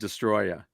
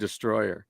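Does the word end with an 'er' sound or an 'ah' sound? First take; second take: ah sound; er sound. First: The word ends with an open 'ah' sound. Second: The word ends with an 'er' sound. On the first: It names the film monster. "they pronounce it Destroya" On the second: It names the song. "they did that song Destroyer"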